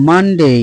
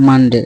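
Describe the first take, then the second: First: "মানডে" as man-dey, long gliding ending; corrected pronunciation. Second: "মানডে" as man-de, short unglided ending; old mistaken pronunciation. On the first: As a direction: model "মানডে" higher-stressed, with a drawn "day". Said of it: "এটার উচ্চারণ হচ্ছে". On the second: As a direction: say "মানডে" with a clipped final de. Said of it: "আমরা এটা আগে জানতাম". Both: Shown as a demonstration.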